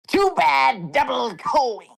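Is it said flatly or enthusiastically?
enthusiastically. It is said in a lively, enthusiastic way.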